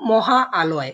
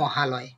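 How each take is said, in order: First: The two parts are said as separate words. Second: The two parts merge into one word. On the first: The speaker calls it wrong. "এভাবে তো উচ্চারণ করি না" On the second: The speaker calls it right. "আমরা বলি মহালয়"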